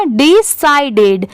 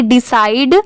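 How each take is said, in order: First: डिसाइडेड slowly as 'di-sai-ded'; careful three-syllable डिसाइडेड; added final syllable. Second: डिसाइड ending on a single d; base word ending. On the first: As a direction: sound the extra 'ded' ending in डिसाइडेड. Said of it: "डी लगने की वजह से क्या हो जाएगा". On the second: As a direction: say डिसाइड as 'di-side', two syllables. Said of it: "इतना सुने होंगे बार बार कि डिसाइड". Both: Shown as a demonstration.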